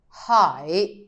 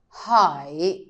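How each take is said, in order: Both takes have the same delivery.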